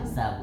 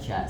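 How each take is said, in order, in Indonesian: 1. Suku kata itu diawali bunyi s biasa. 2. Suku kata itu diawali bunyi sh. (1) "sa bukan sya" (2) "bukan sya"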